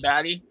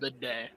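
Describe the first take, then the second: First: The name sounds like 'batty', two short syllables. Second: The name sounds like 'bidet', like the toilet. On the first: This is how the speaker used to say it. The speaker calls it wrong. "I always called him Batty" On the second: This is apparently the correct pronunciation. The speaker calls it right. "but apparently it's"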